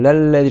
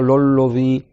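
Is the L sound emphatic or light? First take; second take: light; emphatic. First: The L sound is light, not emphatic. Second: The L sound is heavy and emphatic. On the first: The speaker calls it right. "c'est un lam qui est muraqqaqa, qui est pas emphatique" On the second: The speaker calls it wrong. "je dis pas"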